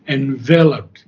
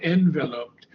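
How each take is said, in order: First: The stress is on the second syllable. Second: The stress is on the first syllable. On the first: The speaker calls it right. "the accent is on the second syllable" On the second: The speaker calls it wrong.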